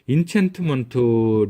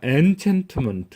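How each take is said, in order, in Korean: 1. 첫 음절은 'in' 소리로 발음됩니다. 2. 첫 음절은 'en' 소리로 발음됩니다. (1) "N 발음이 나는 거를 인챈트먼트 련이 하는 생각도 했었는데" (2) "사전 찾아보니까 엔챈트먼트 이렇게 발음되더라고요"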